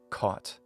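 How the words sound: It is said in an American accent. "three vowel sounds in American English"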